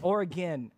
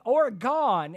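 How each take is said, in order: First: It is said the way locals say it. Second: It is said the way East Coasters say it. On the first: The speaker calls it right. "No, it's Oregon" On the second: The speaker calls it wrong. "y'all say Oregon, and that drives me nuts"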